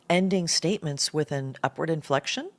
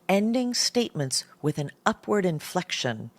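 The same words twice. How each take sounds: First: The voice rises at the end. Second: The voice falls at the end.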